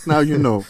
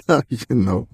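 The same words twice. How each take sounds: First: Said in the usual way. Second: Now you know said slow with a laugh; slow laughing repeat. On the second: Shown as a demonstration. Host closing the Fraggle joke with a slow laughing catchphrase. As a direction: drag it out like a jingle.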